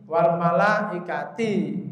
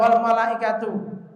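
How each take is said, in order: First: The final vowel is an 'i' sound. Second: The final vowel is a 'u' sound. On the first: The angels are grouped with the clouds. The speaker calls it wrong. "Jangan sampai dibawa dibaca bawah malaikati" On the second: The angels come as a separate subject. The speaker calls it right. "tapi ini harus dibaca wal malaikatu"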